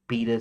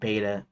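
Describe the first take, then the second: First: The word is said with a British pronunciation. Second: The word is said with an American pronunciation. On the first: "you guys from the U K pronounce it beta sometimes" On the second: "I always pronounce it beta"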